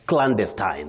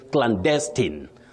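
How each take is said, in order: First: The stress is on the first syllable. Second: The stress is on the second syllable. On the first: "the stress is on the first syllable" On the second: "the stress is on the second syllable"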